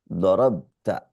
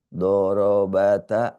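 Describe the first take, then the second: First: The b runs straight into the t. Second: A vowel is sounded between the b and t.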